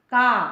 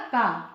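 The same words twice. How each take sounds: First: का said louder and punched as the answer; emphatic answer. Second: Said in the usual way. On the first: Shown as a demonstration. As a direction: hit का firmly, like revealing the answer. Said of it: "तो ये क्या हो जाएगा". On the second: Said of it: "क्या हो जाएगा".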